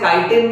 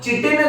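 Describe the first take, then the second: First: The word begins with a 'k' sound. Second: The word begins with a 'ch' sound. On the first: "आप इसे काइटिन भी pronounce कर सकते हो" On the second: "चिटिन नाम के material"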